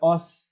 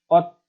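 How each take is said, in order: First: The word ends with an s sound. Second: The word ends with a t sound. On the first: The speaker calls it wrong. "Dibacanya bukan os" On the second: The speaker calls it right. "melainkan ot"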